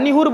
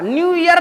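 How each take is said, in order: First: The words are squeezed together, middle sound dropped. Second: Both words are said fully and separately. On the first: "निहुर बोल देता है सीधे, बीच का pronunciation गायब है" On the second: "न्यू ईयर नहीं बोलता है"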